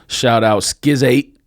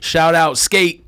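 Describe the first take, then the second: First: The name is stretched into 'Skiz eight'. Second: The name is said as one plain syllable.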